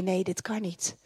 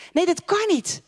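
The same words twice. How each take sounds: First: Low, soft, defeated no; quietly giving up hope; despairing doubt. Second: Higher, firmer flat refusal; stubbornly repeating the no; insistent doubt. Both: Retold or imitated. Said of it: "en dan denk je".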